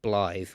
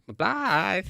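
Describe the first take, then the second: First: Said in the usual way. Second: High, drawn-out teasing cry; mock call. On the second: Actor sending up his own scene after being teased, mock call. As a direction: imitate people mocking how you call the name. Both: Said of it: "getting the mickey taken out of me".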